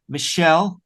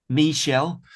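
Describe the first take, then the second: First: Said in the usual way. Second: Michelle with a clear "mee" first syllable; careful pronunciation. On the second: Real, not acted. Podcast guest attempting a hard artist name, careful pronunciation. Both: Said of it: "will pronounce it better than me".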